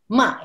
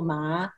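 First: The syllable is said with Mandarin tone four. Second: The syllable is said with Mandarin tone two. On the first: "ma is tone four" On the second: "tone two ma"

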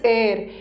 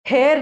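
First: The word begins with a vowel, no h. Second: The word begins with an h sound. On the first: The speaker calls it right. "इसका pronunciation is एयर" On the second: The speaker calls it wrong. "इसका pronunciation हेयर नहीं है"

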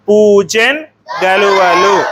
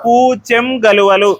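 First: The first word ends in a clear n. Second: The first word ends in an m sound. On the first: "మొదటిది వచ్చేసి పూచెన్ గలువలు" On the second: "సున్నా వస్తుంది"

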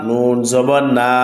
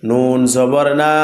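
The two takes are said the same way.

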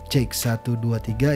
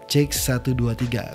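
First: Bass is cut, midrange left unboosted. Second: Bass is cut and midrange is boosted. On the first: "Kalian bisa dengar ya suara bassnya itu langsung hilang ya" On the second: "kombinasi dari equalizer high pass filter dan presence boost"

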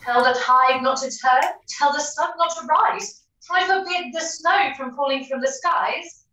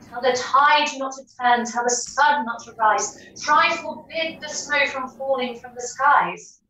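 First: It is said as a rhetorical question. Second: It is said as a plain statement.

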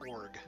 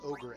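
First: The word is said as one syllable. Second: The word is said with two syllables. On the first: The speaker calls it wrong. "as org" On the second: The speaker calls it right. "I used to pronounce ogre"

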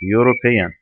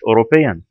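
First: The word begins with a 'you' sound. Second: The word begins with a plain vowel sound. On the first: The speaker calls it right. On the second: The speaker calls it wrong.

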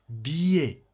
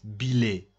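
First: The middle has a y-like glide. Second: The middle has no y-like glide. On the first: The speaker calls it right. "This is I. ... Ie, ie, ie, like billet" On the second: The speaker calls it wrong. "don't pronounce like that, billet. Billet is not correct"

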